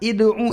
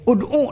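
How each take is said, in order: First: The word begins with an i vowel. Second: The word begins with an u vowel. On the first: The speaker calls it wrong. "Kalau dikasrohkan berat" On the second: The speaker calls it right. "u-nya doma"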